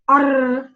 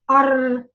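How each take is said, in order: No difference in how they are said.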